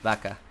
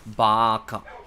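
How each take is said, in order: First: It is said the Spanish way, without pushed-out air. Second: It is said the Japanese way, with audible aspiration. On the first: "in Spanish, ... I'm not really pushing my air out" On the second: "You can hear the aspiration"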